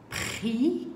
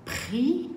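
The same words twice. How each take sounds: First: "Pris" with a crisp P and a rising tune; stressed P sound. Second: "Pris" with a crisp aspirated P, higher and rising; careful P sound. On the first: Teacher contrasts P with B for pupils, crisp P. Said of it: "on n'est plus sur le son B". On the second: Teacher repeats P sound to avoid B confusion, crisp P. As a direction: punch the P of "Pris", up high. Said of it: "Donc je reprends le son P". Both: Shown as a demonstration.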